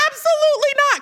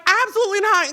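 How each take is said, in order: First: High, loud retold reassurance; emphatic mock denial. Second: High, loud retold denial; emphatic mock denial. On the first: Kamala reassures the host, emphatic mock denial. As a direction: imitate a firm, high-pitched denial. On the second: Retelling Kamala's answer to the host, emphatic mock denial. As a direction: pitch it up, firmly imitating her reassurance. Same reassurance retold again.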